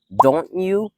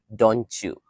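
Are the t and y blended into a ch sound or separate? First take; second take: separate; blended. First: The t and y sounds are kept separate. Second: The t and y blend into a ch sound.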